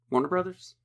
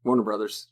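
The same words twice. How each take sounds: First: "Warner Brothers?" asked with a higher rising end; questioning rise. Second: Said in the usual way. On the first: Shown as a demonstration.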